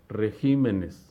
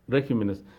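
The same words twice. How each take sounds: First: The stress is on the second syllable. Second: The stress is on the first syllable. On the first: The speaker calls it right. "trasladan el acento de la sílaba re a la siguiente sílaba" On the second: The speaker calls it wrong. "resaltando el acento de la sílaba re"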